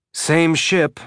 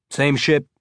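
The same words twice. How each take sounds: First: "Same ship" said curtly, with a touch of surliness; surly. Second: Said in the usual way. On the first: A narrator's reading. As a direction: clip "Same ship" off, mildly grumpy. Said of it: "feeling a little surly". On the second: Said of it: "Alex musing on the ship's names".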